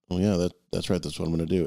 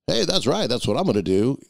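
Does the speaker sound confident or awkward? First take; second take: awkward; confident. First: It is said in a hesitant, awkward way. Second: It is said in a confident, assured way.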